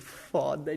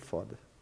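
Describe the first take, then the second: First: It is said with an excited, enthusiastic tone. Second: It is said with a discouraged, disappointed tone. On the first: The experience was amazing. "Você sabe que foi incrível" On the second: Things are going badly. "Você sabe que foi uma porcaria"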